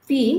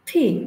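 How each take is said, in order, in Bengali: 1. প্রথম ব্যঞ্জনে বাতাসের কোনো ফুঁ নেই। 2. প্রথম ব্যঞ্জনে বাতাসের একটি ফুঁ আছে।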